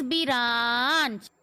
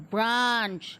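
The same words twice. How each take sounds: First: "branch" split as bi-raanch, long aa; wrong pronunciation. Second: "branch" as one syllable, br blended; correct pronunciation. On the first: Teacher mimicking a mistake, drawn-out "branch" as bi-raanch. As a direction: say "branch" with an i between b and r. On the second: Teacher correcting herself after the mistake, one-syllable "branch". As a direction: join b straight to r in "branch". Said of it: "it is branch". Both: Shown as a demonstration.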